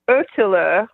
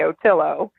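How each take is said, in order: First: It is said with a Swedish pronunciation. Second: It is said with an American pronunciation.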